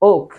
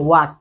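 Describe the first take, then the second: First: The vowel sounds like 'aw'. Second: The vowel sounds like 'ah'. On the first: This is the proper pronunciation. The speaker calls it right. "So এটার pronunciation হচ্ছে ওক" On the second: This is how people here usually say it. The speaker calls it wrong. "আমরা সবসময় এটাকে বলি ওয়াক"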